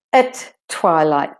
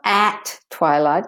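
First: "at" reduced to a weak schwa before "twilight"; de-stressed "at". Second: "at" stressed with a full open A; full vowel "at". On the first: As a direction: swallow the A in "at", land on TWILIGHT. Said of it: "The A becomes de-stressed, it's not important". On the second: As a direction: say "at" clearly, unreduced, before "twilight". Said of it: "So it's not at twilight". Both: Shown as a demonstration.

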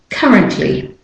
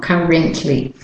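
First: "currently" with a quick "uh" for the E; correct weak vowel. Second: "currently" with the middle E given its full value; wrong full vowel. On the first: Teacher gives learners the correct version, "currently" with weak middle. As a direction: say "currently" as CUH-runt-ly. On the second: Teacher contrasts the mistake for learners, "currently" with unreduced E. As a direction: say "currently" wrongly as cur-RENT-ly. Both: Shown as a demonstration. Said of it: "not currently".

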